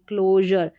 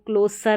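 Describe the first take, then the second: First: The middle consonant is a zh sound. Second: The middle consonant is a plain s sound. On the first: The speaker calls it right. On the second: The speaker calls it wrong. "इसको क्लोसर नहीं पढ़ेंगे"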